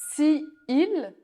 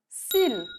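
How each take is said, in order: First: The vowel of 'si' is kept before 'il'. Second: The vowel of 'si' is dropped before 'il'.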